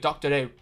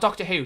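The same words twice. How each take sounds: First: The word 'Who' is drawn out like a hoot. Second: The word 'Who' is said plainly and briefly. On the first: "like he's like he's a, a an owl" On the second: "not Doctor Who"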